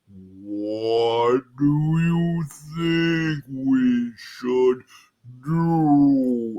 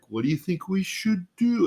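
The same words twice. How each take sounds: First: It is said very slowly and dopily. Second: It is said at a normal speed.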